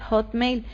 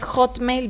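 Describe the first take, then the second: First: It starts with a soft breathy h. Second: It starts with a harsh throat sound. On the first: The speaker calls it right. "Es hotmail" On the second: The speaker calls it wrong. "una H en inglés no es hotmail"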